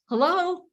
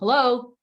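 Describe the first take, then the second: First: It sounds warm and smiling. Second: It sounds flat, focused and unwelcoming. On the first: The speaker is glad to hear from the caller. The speaker calls it right. "if I first go smile first" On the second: The speaker is busy and not open to the caller. The speaker calls it wrong. "I'm focused. I don't sound very welcoming"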